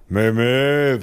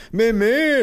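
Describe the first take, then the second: First: Muffled, mushy denial; dismissive numb-mouthed father. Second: Very high, muffled denial; giggly no through a swollen mouth; laughing mother. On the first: Father denying fire to the officer, muffled dismissal. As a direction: brush it off through a numb mouth. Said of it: "winkte mein Vater ab". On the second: Mother denying stings to officer, high muffled amusement. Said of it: "lachte meine Mutter". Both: A narrator's reading.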